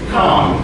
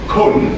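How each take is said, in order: First: The vowel is an open 'ah' sound. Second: The vowel is a reduced 'uh' sound. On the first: The speaker calls it right. "you pronounce the O A" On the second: The speaker calls it wrong. "instead of saying kun"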